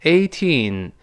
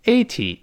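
First: "eighteen" with a long, stressed second syllable; long final "teen". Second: "Eighty" with a short, unstressed ending; short final "ty". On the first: Teacher contrasts it with eighty, long-ended "eighteen". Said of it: "一个是teen". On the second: Teacher contrasts it with eighteen, short-ended "Eighty". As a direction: keep the end of "Eighty" short. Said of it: "不要跟eighty搞混了啊". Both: Shown as a demonstration.

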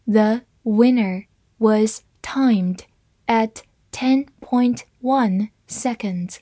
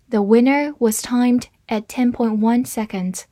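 First: Slow, careful read-through; deliberate slow model sentence. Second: Said in the usual way. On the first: Shown as a demonstration. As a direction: read it slowly for the class. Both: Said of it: "好，慢读一遍。".

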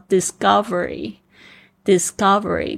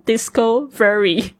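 First: Discovery said properly as dis-GUV-ery, stressed on the second syllable; discovery as one word, dis-COV-ery; correct pronunciation. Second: Discovery botched as "disco-very"; discovery broken into two words, DISCO VERY; mispronounced word. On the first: Shown as a demonstration. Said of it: "跟disco没有关系哈". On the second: Retold or imitated. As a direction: imitate a learner saying discovery as disco plus very. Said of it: "就讲成discovery".

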